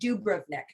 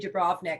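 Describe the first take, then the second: First: The stress is on the first syllable. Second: The stress is on the second syllable. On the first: This is how locals say it. "They really uh, put the emphasis on the the do" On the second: This is how English speakers usually say it. "We usually say Dubrovnik"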